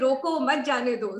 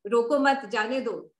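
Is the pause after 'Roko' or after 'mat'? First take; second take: after Roko; after mat. First: The pause comes after the word 'Roko'. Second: The pause comes after the word 'mat'.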